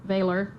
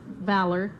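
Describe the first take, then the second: First: VALOR said as "VAY-ler"; long "ay" in the first syllable of VALOR; foreign-accent slip. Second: VALOR with a short a as in "cat"; plain pronunciation. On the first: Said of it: "that's my foreign accent". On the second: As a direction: say VALOR to rhyme with "pallor". Two takes of one word. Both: Real, not acted.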